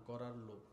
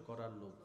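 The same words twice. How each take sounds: No difference in how they are said.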